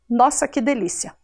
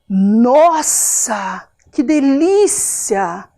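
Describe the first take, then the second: First: It is said flatly, without any emotion. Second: It is said with strong, pleased emotion. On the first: This is how the bare written words read. "Não tem nenhuma emoção, não tem nenhuma diferença de tom de voz" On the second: The speaker feels real pleasure. "O nossa mostra toda uma emoção, toda uma, uma sensação boa"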